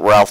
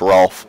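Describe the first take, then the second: First: The name is said like Ralph. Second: The name is said like Rolf. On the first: The speaker calls it wrong. "I guess you pronounce it Ralph though" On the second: The speaker calls it right. "I think it's actually pronounced Rolf"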